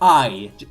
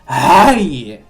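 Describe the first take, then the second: First: The sound is said in a plain voice. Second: The sound is breathed out heavily. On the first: "not just I" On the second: "It's more like you're breathing out the sound"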